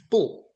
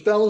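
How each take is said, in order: First: The vowel sounds like the one in 'bull'. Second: The vowel sounds like the one in 'bell'. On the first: The speaker calls it right. "But it's not, it's, it's Bull" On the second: The speaker calls it wrong. "You thought it was Bell as well"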